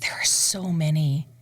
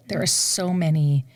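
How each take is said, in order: First: Whispered, overwhelmed; breathy whisper. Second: Said in the usual way. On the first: Real, not acted. Singer asked for favorite opera, whispered. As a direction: whisper it to yourself, a bit overwhelmed.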